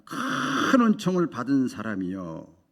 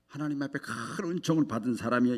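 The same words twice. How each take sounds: First: Slow, weighty scripture reading; slow verse quote. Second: Said in the usual way. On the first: Shown as a demonstration. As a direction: read each word of the verse slowly.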